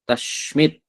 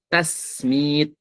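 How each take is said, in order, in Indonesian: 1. Konsonan setelah vokal pertama adalah sh. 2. Konsonan setelah vokal pertama adalah s. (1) "menggunakan shin besar" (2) "Ada juga riwayat dengan sin kecil"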